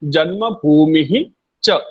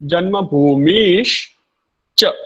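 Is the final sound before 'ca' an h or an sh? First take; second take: h; sh. First: The words are separate, with an h sound before ca. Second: The words are joined, with an sh sound before ca. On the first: "उच्चारणमस्ति" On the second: "श जन्मभूमिश्च"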